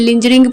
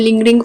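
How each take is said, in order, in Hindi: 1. बीच का व्यंजन soft j की आवाज़ है। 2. बीच का व्यंजन हार्ड g की आवाज़ है। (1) "इसे लिंजरिंग प्रोनाउंस नहीं करेंगे" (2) "लिंगरिंग प्रोनाउंस करेंगे"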